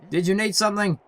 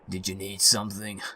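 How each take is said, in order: First: It is said in an ordinary speaking voice. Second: It is said in a deep, put-on manly voice. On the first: The speaker calls it wrong. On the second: The speaker calls it right.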